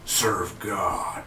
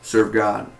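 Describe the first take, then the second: First: It is said in a special put-on voice. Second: It is said in a plain normal voice. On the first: The command is meant to have power over listeners. "in his voice like serve God" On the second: The command is just spoken plainly. "He just did serve God"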